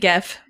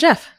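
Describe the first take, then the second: First: The name begins with a hard G sound. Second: The name begins with a J sound. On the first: The speaker calls it wrong. "I thought maybe Geff" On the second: The speaker calls it right. "it's pronounced like J E F"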